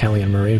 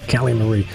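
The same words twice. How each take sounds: First: The name is said quickly, running together. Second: The name is said at a normal, unhurried pace.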